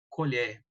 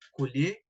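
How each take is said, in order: First: The stressed vowel is said open. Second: The stressed vowel is said closed. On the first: "o O aberto no segundo" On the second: "O fechado para o primeiro"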